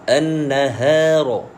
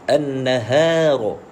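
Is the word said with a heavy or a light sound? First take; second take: light; light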